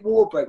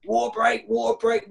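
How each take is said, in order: First: Said in the usual way. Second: High call to stop play; calling a water break. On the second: Retold or imitated. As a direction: shout it across the pitch. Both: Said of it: "Gaffer's called a water break".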